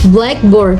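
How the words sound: The stress falls on the first part, black. It names the classroom writing board as one compound word. "compare compound stress"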